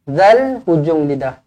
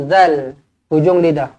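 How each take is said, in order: The two takes are said the same way.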